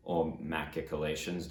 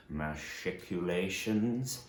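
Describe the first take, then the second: First: Machicolations said normally as the alternative; quick correction. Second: Machiculations said slowly, each syllable drawn out; slow drawn-out variant. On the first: Correcting himself for history fans, casual. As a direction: toss off machicolations as the other way. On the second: Offering fans the first spelling, slow and drawn out. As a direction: stretch out machiculations as the odd version. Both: Shown as a demonstration.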